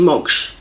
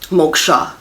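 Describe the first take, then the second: First: The word ends on the final consonant. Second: The word ends with an added 'a' vowel. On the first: This is the original form used in the mantra. The speaker calls it right. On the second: This is the anglicized form used in English. The speaker calls it wrong.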